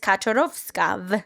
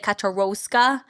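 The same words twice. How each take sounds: First: The w is pronounced like an English V. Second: The w is pronounced like an English W. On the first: The speaker calls it right. "and it's Kaczorowska" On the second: The speaker calls it wrong. "You would say Kaczorowska, but no, there's no W"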